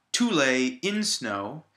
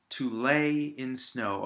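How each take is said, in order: First: Loud, slow "to" and "in", wrongly stressed. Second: Slow "to lay in snow", beats on "lay" and "snow"; stress on LAY and SNOW. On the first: Teacher showing what it's not, stressing to and in. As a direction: hammer "to" and "in" instead of "lay" and "snow". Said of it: "It's not". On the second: Teacher correcting the rhythm, stressing lay and snow. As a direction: keep "to" and "in" light, land on "lay" and "snow". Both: Shown as a demonstration.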